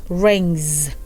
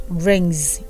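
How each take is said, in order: No difference in how they are said.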